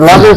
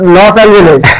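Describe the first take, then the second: First: The name is squashed into two syllables, lojens. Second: The name is said in full, Los Angeles. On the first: The speaker calls it wrong. "লজেন্স হবে না" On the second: The speaker calls it right. "উচ্চারণ করতে হবে"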